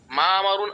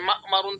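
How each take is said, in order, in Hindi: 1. पहला स्वर दीर्घ है, उसमें ग्लॉटल रुकावट नहीं है। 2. ह्रस्व स्वर के बाद ग्लॉटल रुकावट आती है।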